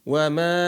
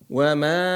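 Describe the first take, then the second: No difference in how they are said.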